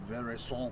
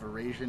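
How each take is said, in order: First: The word is said with a French pronunciation. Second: The word is said with an anglicized pronunciation. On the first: "The French is Veraison" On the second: "People pronounce it differently. Veraison, I've heard"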